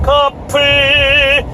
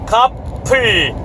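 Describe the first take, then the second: First: The mouth stays open and the p sound blurs. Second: The lips close firmly for a crisp p sound. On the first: The speaker calls it wrong. "커플 이렇게 이렇게 돼버리는" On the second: The speaker calls it right. "이런 명확한 발음이"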